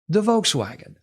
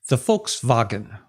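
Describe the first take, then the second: First: It is said with a plain English accent. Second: It is said with a German accent.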